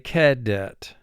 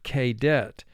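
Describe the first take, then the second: First: The first vowel is a short, reduced sound. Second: The first vowel is a long 'ay' sound. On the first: The speaker calls it right. "much closer to the short sound" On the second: The speaker calls it wrong. "the A would say its name"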